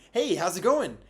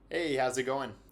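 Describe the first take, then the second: First: It is said too strongly and loudly. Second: It is said relaxed at moderate volume.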